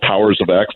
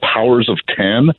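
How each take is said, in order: First: The last word is said as the letter ex. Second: The last word is said as the number ten. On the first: The X is read as a letter. "depending on how you want to pronounce it" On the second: The X is read as a Roman numeral. "depending on how you want to pronounce it"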